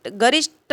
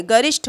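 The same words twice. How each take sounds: First: गरिष्ठ ending in unaspirated T, garisht; wrong final consonant. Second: गरिष्ठ ending in aspirated TH, garishth; correct aspirated ending. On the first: Teacher showing the error, गरिष्ठ with a hard final t. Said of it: "गरिष्ठ नहीं है". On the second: Teacher correcting it, गरिष्ठ with aspirated final th. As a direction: finish गरिष्ठ with a puff on retroflex th. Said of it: "ये ध्यान देंगे". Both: Shown as a demonstration.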